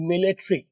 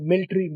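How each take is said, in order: First: The t is said with a strong burst of air. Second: The t is said without a burst of air. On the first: The speaker calls it right. "अगला टी blast होना है" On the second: The speaker calls it wrong. "आप बोलते हैं मिलिट्री"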